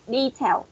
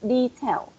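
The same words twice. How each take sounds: First: Said in the usual way. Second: Detail with the first syllable stressed. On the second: Shown as a demonstration. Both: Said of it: "We will stress, uh, the first syllable".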